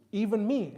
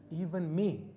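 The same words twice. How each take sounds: First: The second "even me" louder and pleading; insistent repeat. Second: Said in the usual way. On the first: Retold or imitated. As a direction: push the repeat harder. Grandson pleads at the door.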